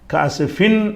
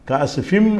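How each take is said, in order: First: The word ends with a clear n sound. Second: The final nasal merges into an m sound. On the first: The speaker calls it wrong. "காசுஃபின் என்று படிக்கக்கூடாது" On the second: The speaker calls it right. "காசுஃபிம் என்று படிக்கணுமே"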